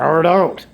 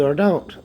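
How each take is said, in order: First: Dismissive impression. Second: Said in the usual way. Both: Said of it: "Who do I sound like there?".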